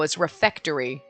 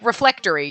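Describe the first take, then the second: First: No 'l' sound follows the first syllable. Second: An extra 'l' sound follows the first syllable. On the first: The speaker calls it right. "no, it's refectory" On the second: The speaker calls it wrong. "You're like, reflectory"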